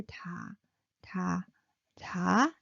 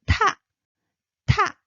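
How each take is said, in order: First: Low, soft "ta"; soft, low, separate "ta" syllables; low pitched, soft. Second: "ta" with a burst of air; loud aspirated "ta"; aspirated, rising. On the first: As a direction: say "ta" gently on a low note. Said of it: "Low pitched and soft". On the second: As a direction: puff "ta" out hard, pitch rising. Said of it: "burst of air rising". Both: Shown as a demonstration.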